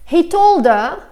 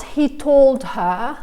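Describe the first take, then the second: First: "He told her" with the H of "her" dropped, "told 'er". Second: "he told her" with a clear H in "her"; the unnatural version with every H sounded; H pronounced. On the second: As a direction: say the H in "her" fully. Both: Shown as a demonstration. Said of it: "not he told her".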